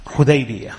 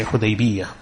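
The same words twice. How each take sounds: First: Hudaybiyah with a single light y; without tashdeed. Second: Hudaybiyah with a doubled y near the end; with tashdeed. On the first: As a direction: leave the ya in Hudaybiyah undoubled. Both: Shown as a demonstration. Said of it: "both pronunciations are correct".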